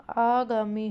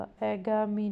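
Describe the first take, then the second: First: आगामी with a long, slow first आ; correct long aa. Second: अगामी with a short first अ; wrong short a. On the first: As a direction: stretch the आ in आगामी. (लंबे आ के साथ सही उच्चारण आगामी) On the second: (छोटे अ से गलत उच्चारण अगामी) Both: Shown as a demonstration. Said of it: "अगामी नहीं होगा".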